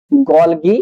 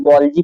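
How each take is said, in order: First: Said in the usual way. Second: गोल्जी with a "j" sound in the second syllable; गोल्जी, the g softened to j as in "jeep"; soft-g pronunciation. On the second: Shown as a demonstration. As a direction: say गोल्जी as "gol-jee", not "gol-gee". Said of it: "कुछ लोग गोल्जी पढ़ते हैं".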